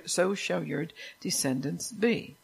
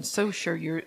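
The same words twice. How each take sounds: First: So shall your descendants be, drawn out slowly with a rise on be; slow right down and lift "be" at the end; slowed emphasis. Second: Said in the usual way. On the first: Shown as a demonstration.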